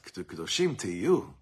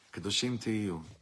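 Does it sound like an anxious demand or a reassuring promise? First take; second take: anxious demand; reassuring promise. First: It sounds like an anxious, pressing demand. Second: It sounds like a calm, reassuring promise.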